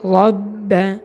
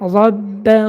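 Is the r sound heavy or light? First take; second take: heavy; heavy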